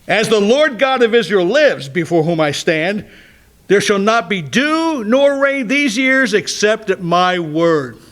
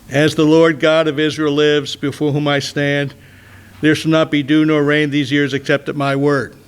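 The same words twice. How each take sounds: First: It is said in a challenging, forceful tone. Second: It is said in a mild, unchallenging tone.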